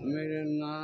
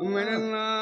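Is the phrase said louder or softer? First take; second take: softer; louder. First: The phrase is said at a much softer volume. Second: The phrase is said at a louder volume. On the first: "আরো আস্তে বল।" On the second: "আস্তে কথা বল।"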